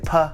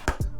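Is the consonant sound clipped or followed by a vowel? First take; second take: with vowel; clipped. First: The sound has an extra vowel after it. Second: The sound is short, with no vowel after. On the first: The speaker calls it wrong. "you might say" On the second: The speaker calls it right. "whereas you really want to say"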